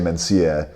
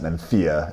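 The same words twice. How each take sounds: First: The middle consonant is a plain s sound. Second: The middle consonant is a marked th sound. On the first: This is how most people in the country say it. "people here will say Mencia" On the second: The speaker is trying to sound sophisticated. "obviously emphasize the th and pronounce it Mencia"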